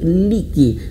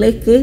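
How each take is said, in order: First: The vowels sound like a clear i. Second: The vowels sound like e. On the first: The speaker calls it right. "tapi liki" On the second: The speaker calls it wrong. "bukan leke"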